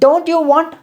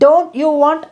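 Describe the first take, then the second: No difference in how they are said.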